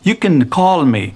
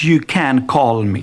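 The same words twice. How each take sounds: First: The word can is short and reduced. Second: The word can is said fully and clearly. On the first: The speaker calls it right. "briefly, short, it is reduced" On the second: The speaker calls it wrong. "It's not you can call me. No"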